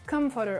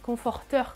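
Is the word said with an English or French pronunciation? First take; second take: English; French. First: It is said with an American English pronunciation. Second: It is said with a French pronunciation. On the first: "on appelle ça comforter" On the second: "Si on le prononçait à la française"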